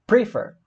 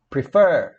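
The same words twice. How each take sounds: First: "prefer" stressed on PRE; stress on the first syllable. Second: "prefer" stretched slowly on FER; stress on the last syllable. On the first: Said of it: "a gente fala prefer ou prefer". ("prefer" com a sílaba tônica no PRE) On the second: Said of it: "A sílaba sanduíche de vogal é a mais forte". ("prefer" com a sílaba tônica no FER, alongada) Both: Shown as a demonstration.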